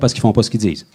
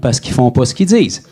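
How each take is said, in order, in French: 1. Elle est prononcée à un rythme normal, plutôt rapide. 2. Elle est prononcée à un rythme plus lent.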